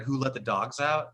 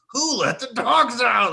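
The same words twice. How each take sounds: First: Said in the usual way. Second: Loud, high, drawn-out earnest demand; very serious. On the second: Retold or imitated. Roommate asking from his room, dead-serious loud call. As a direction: call it out slowly, desperate to know. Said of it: "very seriously say from his room".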